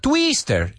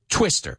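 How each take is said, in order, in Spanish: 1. La primera vocal es un sonido de ee larga. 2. La primera vocal es un sonido de i corta. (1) "So it's not twister. You hear how that I, first of all, doesn't sound like E" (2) "It's I, twister, and it's a short vowel sound"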